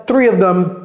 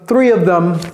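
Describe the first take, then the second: First: The word them is pronounced fully. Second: The same.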